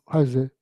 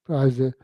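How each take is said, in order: The two takes are said the same way.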